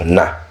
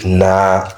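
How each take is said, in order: First: The vowel is cut short. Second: The vowel is held long. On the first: They (women) went. "le na est bref" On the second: We went. "c'est juste l'allongement du na là"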